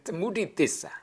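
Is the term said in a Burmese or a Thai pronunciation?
Burmese. The term is said with a Burmese pronunciation. "in Burmese pronunciation"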